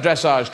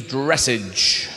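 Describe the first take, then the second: First: French-sounding "dressage", long second vowel; French pronunciation. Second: "dressage" as English DRESS-idge; mock-English "dressage" with a hard j ending; anglicized pronunciation. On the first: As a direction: say "dressage" as dress-AHZH, low. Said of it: "It's a French word". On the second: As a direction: say "dressage" low and slow, ending like message. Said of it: "Translated into English". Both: Shown as a demonstration.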